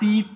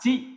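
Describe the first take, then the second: First: The syllable begins with a plain t sound. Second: The syllable begins with a ch sound. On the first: The speaker calls it wrong. "আমরা কিন্তু তা, তি, তু, তে, তো পড়ি নাই" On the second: The speaker calls it right. "আমরা পড়ছি তা, চি, চু"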